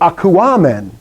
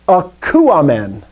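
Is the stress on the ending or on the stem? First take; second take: ending; stem. First: The stress falls on the ending, not the stem. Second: The stress falls on the stem's last syllable. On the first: The speaker calls it wrong. "It will never go akuamen" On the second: The speaker calls it right. "the accent will always go on the last syllable of the stem"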